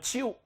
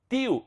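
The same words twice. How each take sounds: First: The t is followed by a hissing ch sound. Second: The t is a clean stop without hissing. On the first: "e não tio" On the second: "tio e não tio"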